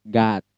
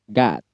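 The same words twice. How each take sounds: No difference in how they are said.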